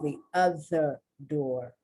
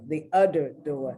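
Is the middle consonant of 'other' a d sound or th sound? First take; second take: th sound; d sound. First: The word 'other' is said with a th sound. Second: The word 'other' is said with a d sound. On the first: The speaker calls it right. "instead of saying the other door" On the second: The speaker calls it wrong. "they make fun of because the person says"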